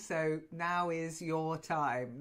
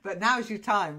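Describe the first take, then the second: First: Now and is are said as separate words. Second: Now and is are run together as now's.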